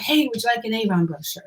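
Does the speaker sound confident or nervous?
nervous. It sounds nervous and hesitant.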